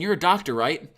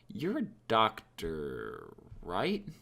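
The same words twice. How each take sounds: First: It sounds certain, expecting a yes. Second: It sounds unsure, like a genuine question. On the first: The asker knows the answer and wants agreement. "You know the answer" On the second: The asker really does not know the answer. "your confidence is way lower. You are actually asking for confirmation"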